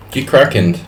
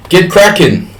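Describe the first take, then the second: First: Said in the usual way. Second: High, loud rallying call; loud command. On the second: Shown as a demonstration. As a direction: bark it out to rally the members.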